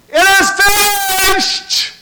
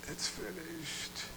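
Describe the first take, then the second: First: It is said strongly, with full energy. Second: It is said weakly, like a dying man.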